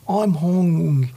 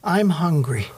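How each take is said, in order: First: It is said in Dennis's Honduran accent. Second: It is said in a plain American accent.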